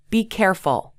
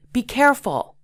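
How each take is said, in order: First: Said in the usual way. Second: "Be careful" higher and urgent; with great emotion. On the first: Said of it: "listen to the difference". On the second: Shown as a demonstration. Teacher showing an urgent warning to a friend, higher pitch. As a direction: warn them urgently. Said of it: "excitement in your voice".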